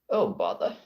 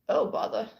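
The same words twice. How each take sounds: First: The voice is pitched lower and deeper. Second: The voice is pitched higher and lighter. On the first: "that wasn't high enough" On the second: "that wasn't even deep enough"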